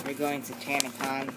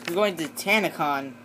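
First: Said in the usual way. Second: "You're going to Tanacon" said again, clearer and a bit louder after "What?"; repeated louder. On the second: Acted. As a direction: say "You're going to Tanacon" again for someone who didn't hear.

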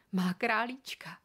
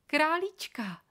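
First: Said in the usual way. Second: Higher, louder, thrilled; delighted little girl. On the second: A narrator's reading. Girl thrilled to hold her new rabbit, delighted. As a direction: coo over the bunny with joy.

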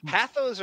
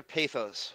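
First: Pathos with the A of "path"; first vowel of pathos short, as in "cat"; short-A pronunciation. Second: Pathos with the A of "pay"; first vowel of pathos long, as in "face"; long-A pronunciation. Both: Shown as a demonstration. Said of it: "Is it pathos or pathos?".

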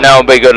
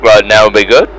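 First: Said in the usual way. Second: "now would be good?" with the tune rising on "good"; question tune. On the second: Shown as a demonstration. Echoing the co-pilot's order back as a rising question. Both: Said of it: "like, question mark?".

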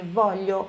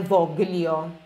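First: Voglio with the gl said like Portuguese lh, vo-lyo; correct Italian voglio. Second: Voglio with a hard g and l, vog-lio, the Brazilian way; wrong hard-g voglio. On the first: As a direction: voglio pronounced volyo, the gl like lh. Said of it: "não se pronuncia o G L". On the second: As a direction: mispronounce voglio with a hard g sound. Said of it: "não é voglio". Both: Shown as a demonstration.

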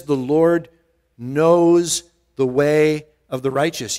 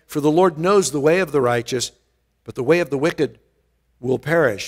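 First: "knows" drawn out and weighted, the rest slow; slow, pointed reread leaning on "knows"; stress on knows. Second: Said in the usual way. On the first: Shown as a demonstration. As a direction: linger on "knows" to make them notice. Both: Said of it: "Did you notice it says".

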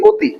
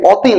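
First: অতি changed to start with a closed "o"; closed initial vowel. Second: অতি with an open "aw" at the start; open initial vowel. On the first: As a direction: say the অ of অতি like ও, a rounded "oh". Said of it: "ও এর মতো না". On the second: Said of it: "এটা উচ্চারণ কি করো". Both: Shown as a demonstration.

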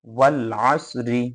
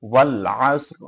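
First: Slow ওয়াল আসরি with the final "ri" voiced; full ending. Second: ওয়াল আসর stopped on a vowelless r; waqf stop ending. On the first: Teacher reading the word unstopped for students, ওয়াল আসরি with final i. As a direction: draw out ওয়াল আসরি and sound its last vowel. Full form before showing the stop. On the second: Teacher showing how to pause at verse end, ওয়াল আসর with silent-vowel r. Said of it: "এখানে যখন আমরা ওয়াকফ করব". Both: Shown as a demonstration.

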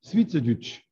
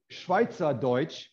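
First: "Schweizerdeutsch" in a Swiss German accent, "Schwiizerdütsch". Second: "Schweizerdeutsch" in standard German, slow; careful "Schweizerdeutsch" before the Swiss version. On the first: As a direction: say "Schweizerdeutsch" the Swiss way, short "i" and "ü" sounds. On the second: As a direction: say "Schweizerdeutsch" plainly with a German "ei" as in "eye", drawn out. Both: Shown as a demonstration. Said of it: "when you say it with the Swiss accent".

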